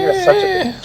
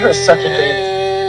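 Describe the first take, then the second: First: High, tearful, pained insult; crying. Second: High, slow, tearful insult; crying. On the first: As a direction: whimper it out through tears. Repeats, crying, in pain. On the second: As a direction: sob the words out in pain. Crying out while being restrained. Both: Real, not acted.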